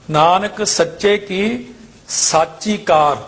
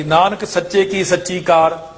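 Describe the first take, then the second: First: ਸਾਚੀ with long aa, "saachi"; correct long vowel. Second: ਸੱਚੀ with short a, "sachchi"; common misreading. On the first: Teacher correcting the line, ਸਾਚੀ with long aa. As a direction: open out the aa of ਸਾਚੀ. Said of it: "ਇੱਥੇ ਸੱਸੇ ਕੰਨਾ". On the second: Teacher showing the mistake, ਸੱਚੀ with short a. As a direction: clip the vowel of ਸੱਚੀ short. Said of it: "ਇੱਥੇ ਗਲਤੀ ਹੋ ਜਾਂਦੀ". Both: Shown as a demonstration.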